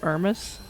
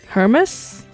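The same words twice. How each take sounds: First: The word begins without any H sound. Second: The word begins with an audible H sound. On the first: It names the fashion brand. "So it's not like the brand" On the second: It names the Greek god. "You do pronounce the H, just like Herm"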